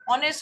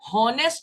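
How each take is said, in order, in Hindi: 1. शब्द सीधे स्वर ध्वनि से शुरू होता है। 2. शब्द h ध्वनि से शुरू होता है। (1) "ऑनेस्ट एच से शुरू होता है, लेकिन हम फिर भी उसके आगे एन लगाते हैं" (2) "वो वर्ड हॉनेस्ट नहीं पढ़ा जाता"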